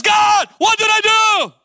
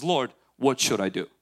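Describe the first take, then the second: First: Scared cry. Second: Calm, low, measured plea; composed prayer. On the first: Saul cries to God afraid, loud panicked shout. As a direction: wail it up to God in hammed-up fright. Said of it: "is afraid, scared". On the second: David asks the Lord from strength, calm and low. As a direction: ask it steadily, with trust. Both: Retold or imitated.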